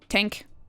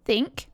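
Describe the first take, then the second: First: It is said in an Irish accent. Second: It is said in an English accent. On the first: "Irish say think" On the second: "English say think"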